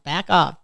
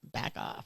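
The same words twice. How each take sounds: First: Said in the usual way. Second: Whispering "back off" under her breath. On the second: Retold or imitated. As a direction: drop to a voiceless whisper on "back off". Whispered to herself.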